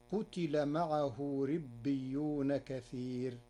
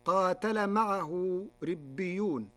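First: "قتل" as qutila, short u then i; slow recitation with "قتل" in the passive, qutila; damma, kasra, no alif. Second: Said in the usual way. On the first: Shown as a demonstration. Teacher showing Warsh's reading, "قتل" said qutila without long a. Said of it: "بضم القاف وكسر التاء". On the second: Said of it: "قاتل بضم القاف وكسر".

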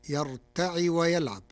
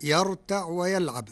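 First: يرتع with the ain voweled by kasra, yartaʕi; Warsh reading. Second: Said in the usual way. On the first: Shown as a demonstration. Teacher demonstrates the Warsh variant yartaʕi. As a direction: read يرتع ending in a short i. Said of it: "بكسر العين". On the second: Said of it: "قرأ ورش كلمة يرتع".

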